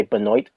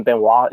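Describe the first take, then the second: First: "Benoit" said ben-OYT; "Benoit" ending in a hard t; Canadian pronunciation. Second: "Benoit" said ben-WAH; "Benoit" ending on an open ah; American pronunciation. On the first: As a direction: say "Benoit" with an oy and a sounded t. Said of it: "it's how you say it in Canadian". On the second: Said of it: "is how you say it in American". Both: Shown as a demonstration.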